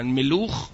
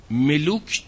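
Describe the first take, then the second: First: ملوخ with a final kh sound, Hebrew style; Hebrew pronunciation. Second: ملوک ending in a clear k sound; Arabic pronunciation. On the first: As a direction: say ملوخ ending in a throaty kh. (تلفظ عبری ملوخ با «خ» در آخر) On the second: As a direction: say ملوک with a plain k at the end. (تلفظ ملوک با «ک» در آخر) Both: Shown as a demonstration.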